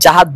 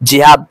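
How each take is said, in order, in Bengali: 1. শব্দটি a স্বরধ্বনি দিয়ে শুরু হয়। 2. শব্দটি i স্বরধ্বনি দিয়ে শুরু হয়। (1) "সঠিক উচ্চারণ হলো" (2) "অনেকেই ভুল করে"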